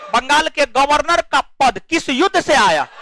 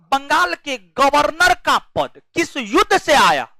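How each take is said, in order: No difference in how they are said.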